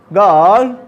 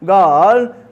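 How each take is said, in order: No difference in how they are said.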